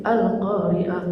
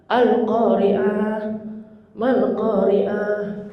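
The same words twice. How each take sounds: First: Al-Qari'ah drawn out very slow, imitating a bad reading; mocking the khotib. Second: Al-Qari'ah, Mal Qari'ah chanted very slowly; recitation demo. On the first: Preacher imitates yesterday's khotib misreading Al-Qari'ah, slow mock recitation. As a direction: mimic the khotib's sloppy Al-Qari'ah. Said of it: "Kemarin khotib begitu". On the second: Shown as a demonstration. Preacher recites Al-Qari'ah slowly to show the proper reading. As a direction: model Al-Qari'ah slowly and fully. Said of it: "Ini kadang-kadang Al-Qari'ah".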